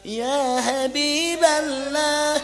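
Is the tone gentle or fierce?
gentle. It is said in a gentle, soft tone.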